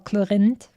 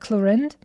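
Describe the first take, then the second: First: The R is said as a French R. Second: The R is said as an English R.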